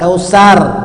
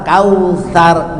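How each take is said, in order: First: The middle consonant is a plain s sound. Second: The middle consonant is a soft th sound. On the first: The speaker calls it wrong. "bukan kausar" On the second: The speaker calls it right. "jadi kausa asa dekat ujung lidah"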